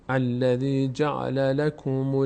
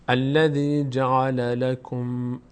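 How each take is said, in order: No difference in how they are said.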